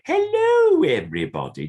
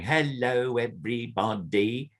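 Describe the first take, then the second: First: Very high, loud squealed hello falling away; big puppet hello. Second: A lightly raised, busy hello; too much movement. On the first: Puppeteer demonstrating the better puppet greeting to a learner. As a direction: give the right puppet greeting a big lift. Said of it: "I'm going". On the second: Puppeteer demonstrating the overdone greeting to a learner. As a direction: show the wrong, fussy way. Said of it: "I'm not going". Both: Shown as a demonstration.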